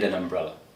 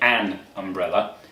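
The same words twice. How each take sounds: First: The article is said quickly with a weak vowel. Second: The article is said slowly with a full vowel. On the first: The speaker calls it right. "it's an" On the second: The speaker calls it wrong. "we don't say an umbrella"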